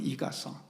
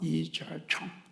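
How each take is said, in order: First: The name is said with Korean pronunciation. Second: The name is said with Mandarin pronunciation. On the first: "우리식으로 발음하면" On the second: "중국식으로 발음하면"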